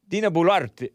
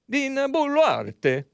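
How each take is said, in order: First: The name is said without an Italian-sounding accent. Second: The name is said with an Italian-sounding accent.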